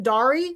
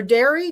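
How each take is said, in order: First: First vowel of Dari open, as in car. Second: First vowel of Dari as in air; Dari like dairy. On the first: Host guessing at the winner's name, Dari said DAH-ree. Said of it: "Is that how you say your name". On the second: Host offering another guess at the name, Dari said DAIR-ee. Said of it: "Pronounced like Dairy Queen". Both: Shown as a demonstration.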